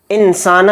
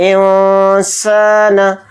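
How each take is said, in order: First: Said in the usual way. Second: इंसान with the n only nasalized, drawn out slowly; इंसान chanted with ikhfa; hidden nasal n. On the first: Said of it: "एकदम नहीं पढ़ेंगे". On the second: Shown as a demonstration. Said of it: "इस तरह से इख्फा करेंगे".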